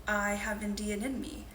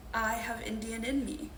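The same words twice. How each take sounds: The two takes are said the same way.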